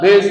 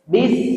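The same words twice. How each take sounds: First: The syllable is heavy and thick. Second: The syllable is light and thin. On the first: The speaker calls it wrong. "Tebal bis misalnya" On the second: The speaker calls it right.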